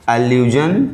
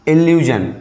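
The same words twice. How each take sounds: First: एल्यूजन said with an open "uh-loo-zhun" start; "एल्यूजन" begins with a short ə, then "loo-zhun"; allusion pronounced. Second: इल्यूजन said with a short "i" start, "il-yoo-zhun"; "इल्यूजन" starts with a clear i sound, then "yoo-zhun"; illusion pronounced. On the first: Teacher contrasts paronyms for students, saying एल्यूजन with ə. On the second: Teacher contrasts paronyms for students, saying इल्यूजन with i. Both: Shown as a demonstration. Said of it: "या दूसरा शब्द".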